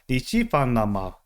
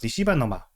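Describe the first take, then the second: First: The phrase is said slowly and carefully. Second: The phrase is said fast and slurred.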